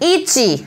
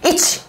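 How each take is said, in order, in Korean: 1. 마지막 모음을 길게 끌어요. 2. 마지막 모음을 짧게 끊어요. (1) "이 발음을 그 뒤에도 깔아줘야 돼" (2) "이치 이게 아니라"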